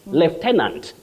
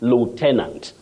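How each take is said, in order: First: It is said with a British pronunciation. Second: It is said with an American pronunciation. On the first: "that is in British English" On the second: "but then American"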